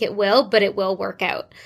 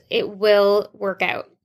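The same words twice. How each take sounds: First: Said in the usual way. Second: "It will work out" said slowly, each word weighted, falling at the end; slow down and land "will" firmly; slow emphatic reassurance. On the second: Real, not acted. Podcast host reassuring listeners, slow and firm on "will". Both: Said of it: "So just keep that in mind".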